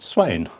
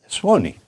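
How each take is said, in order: First: The name has one syllable, rhyming with 'plane'. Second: The name has two syllables, ending in 'ee'. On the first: The speaker calls it wrong. "which rhymes with a plane" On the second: The speaker calls it right. "you pronounce Swanee"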